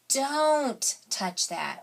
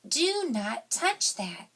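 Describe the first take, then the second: First: Do not is contracted into one short word. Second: Do not is said as two full words.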